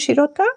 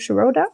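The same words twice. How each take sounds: First: The name is said in a non-American way. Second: The name is said in an American way.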